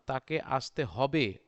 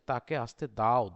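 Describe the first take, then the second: First: হবে set off and leaned on; stress on হবে. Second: দাও pushed out firmly at the end; stress on দাও. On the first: Teacher gives students a hypothetical sentence, stressing হবে. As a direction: put the weight on the final word হবে. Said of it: "হবে যদি বলতাম এখানে". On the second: Teacher contrasts the real example for students, stressing দাও. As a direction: put the weight on the final word দাও. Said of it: "দাও মানে হচ্ছে অন্য কেউ". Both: Shown as a demonstration.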